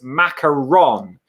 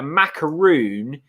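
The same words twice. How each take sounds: First: "macaron" slowly, ending in -ron; "macaron" as mac-a-RON, deliberately spaced; French-derived pronunciation. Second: "macaroon" slowly, with a long oo; "macaroon" as mac-a-ROON, deliberately spaced; pronunciation of macaroon. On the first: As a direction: say "macaron" drawn out, with "on" at the end. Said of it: "It's French from Bordeaux". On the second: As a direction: draw out "macaroon" to rhyme with "moon". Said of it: "macaron pronunciation". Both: Shown as a demonstration.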